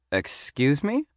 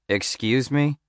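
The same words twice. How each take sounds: First: High, softer query rising at the end; taken-aback grandmotherly voice, pitched up; grandmotherly receptionist. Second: Mildly condescending agent; a bit patronizing. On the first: Receptionist startled by a serial killer question, grandmotherly voice. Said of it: "sounded like someone's grandmother". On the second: Agent answering a student's odd question, a bit patronizing. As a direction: talk down slightly, lifting the end. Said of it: "he said a bit patronizingly". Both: A narrator's reading.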